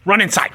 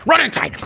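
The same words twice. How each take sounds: First: High loud jeer to go in; loud shooing. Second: Even higher loud jeer; higher shooing yell. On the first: Sending her brother indoors, loud mocking order. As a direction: shoo him off loudly. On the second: Chasing her brother inside, higher mocking yell. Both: Real, not acted.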